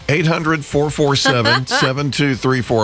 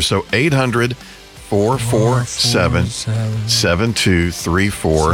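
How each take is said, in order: First: It is said at normal speed. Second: It is said more slowly.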